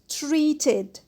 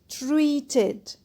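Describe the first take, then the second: The two takes are said the same way.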